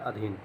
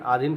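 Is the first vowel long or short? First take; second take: short; long. First: The first vowel is a short a. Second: The first vowel is a long aa. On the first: The speaker calls it right. "सही शब्द होता है अधीन" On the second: The speaker calls it wrong. "आधीन कुछ नहीं होता"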